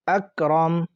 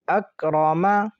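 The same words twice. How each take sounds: First: The last consonant ends without a vowel. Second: The last consonant carries a short vowel.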